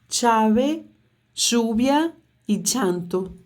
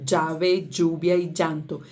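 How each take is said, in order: First: The 'll' sounds like English 'ch'. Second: The 'll' sounds like English 'j'. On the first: "Tchá, tchá, tchá" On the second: "Como se fosse um D J"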